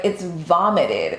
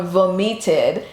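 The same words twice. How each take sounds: First: "vomited" as VAH-mi-tid, slowly corrected; American pronunciation. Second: "vomited" as voh-MEE-tid, Nigerian way; Nigerian pronunciation. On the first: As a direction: stress the first syllable of "vomited", American way. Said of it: "the American way to say". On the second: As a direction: stress the middle of "vomited", with an ee sound. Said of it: "you said it the Nigerian way". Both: Retold or imitated.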